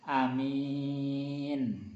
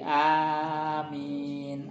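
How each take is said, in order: First: The first vowel is short, the second long. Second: Both the first and second vowels are long. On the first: "memendekkan a, memanjangkan min-nya" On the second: "a-nya panjang, min-nya juga panjang"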